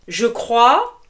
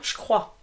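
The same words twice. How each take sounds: First: The e of je is fully pronounced. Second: The e of je is dropped.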